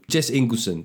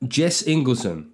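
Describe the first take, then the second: First: Said in the usual way. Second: Slow name announcement; announcing a patron's name; hype call. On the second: Acted. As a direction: draw the name out. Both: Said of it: "do a very quick hype here".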